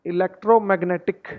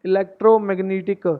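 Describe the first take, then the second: First: इलेक्ट्रोमैग्नेटिक with short e, 'NET-ik'; short vowel before the final tik of इलेक्ट्रोमैग्नेटिक; correct pronunciation. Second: इलेक्ट्रोमैग्नेटिक with 'nee-tik' at the end; long ee in इलेक्ट्रोमैग्नेटिक; former mispronunciation. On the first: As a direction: say इलेक्ट्रोमैग्नेटिक as electro-mag-NET-ik. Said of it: "इसकी pronunciation correct है". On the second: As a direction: say इलेक्ट्रोमैग्नेटिक as electro-mag-NEE-tik. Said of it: "पहले मैं भी ऐसे बोलता था". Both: Shown as a demonstration.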